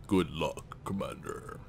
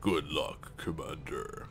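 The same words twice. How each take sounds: First: Lightly voiced deep gravelly spokesman; imitating the spokesman. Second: Second try at a gravelly spokesman voice; imitating the spokesman. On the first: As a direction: try for the Council spokesman's low gravelly tone. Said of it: "I could try to imitate his voice". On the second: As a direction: push for more gravel in the voice. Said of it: "I would need more of, like, a gravelly voice".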